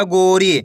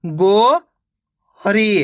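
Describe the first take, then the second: First: Said in the usual way. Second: गो long and rising, pause, then री; गो ... री as two split syllables. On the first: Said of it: "मिलके बन जाएगा". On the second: Shown as a demonstration. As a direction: sound out गो and री separately. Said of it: "एक अक्षर का उच्चारण करके".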